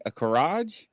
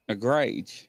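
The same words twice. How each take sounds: First: "garage" with an AH vowel, ending in a J sound. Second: "garage" squeezed to GRAYJ, with a long A; second pronunciation try. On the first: Host puzzling over a listener's word, "garage" sounded out as guh-RAHJ. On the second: Host puzzling over a listener's word, "garage" tried as GRAYJ. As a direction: say "garage" as one syllable, GRAYJ. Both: Real, not acted.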